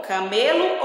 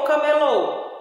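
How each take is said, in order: First: "camelo" com força em ME; tônica no meio. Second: "camelô" com força no LÔ final; tônica no fim. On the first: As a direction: diga "camelo" como paroxítona, caMElo. ("camelo" acentuado na penúltima sílaba) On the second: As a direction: diga "camelô" como oxítona, cameLÔ. ("camelô" acentuado na última sílaba, com O fechado) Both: Shown as a demonstration. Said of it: "Observa bem o acento".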